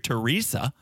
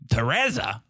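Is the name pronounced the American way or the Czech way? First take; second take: American; Czech. First: The name has the familiar American pronunciation. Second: The name has its unfamiliar Czech pronunciation. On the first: The speaker calls it wrong. "We hear Teresa" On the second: The speaker calls it right. "No one's ever heard that"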